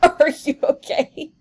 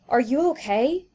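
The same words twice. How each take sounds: First: It is said laughing, sounding amused. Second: It is said with real concern, sounding worried.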